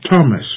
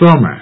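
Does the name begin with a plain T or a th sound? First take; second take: plain T; th. First: The name begins with a plain T sound. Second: The name begins with a th sound. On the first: The speaker calls it right. "T-H here is pronounced as T and not as th" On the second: The speaker calls it wrong. "not as th"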